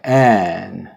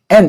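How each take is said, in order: First: The final n is let ring smoothly. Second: The final n is clipped off abruptly. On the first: The speaker calls it right. "이렇게 n" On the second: The speaker calls it wrong. "이렇게 자르면 안 돼요"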